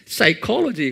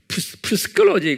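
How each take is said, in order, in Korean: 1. 첫 p 소리는 묵음이다. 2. 첫 p 소리는 발음된다. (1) "그러죠?" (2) "그러지 않죠?"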